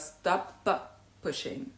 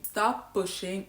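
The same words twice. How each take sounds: First: Both p sounds are pronounced separately. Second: The two p sounds merge into one. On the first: "instead of" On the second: "A native speaker is more likely to say"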